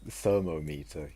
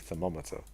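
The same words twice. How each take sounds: First: The start sounds like the word thermo alone. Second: The start sounds different from thermo alone. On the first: The speaker calls it wrong. "you wouldn't say thermometer" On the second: The speaker calls it right. "thermo gets changed in pronunciation when you say the whole word"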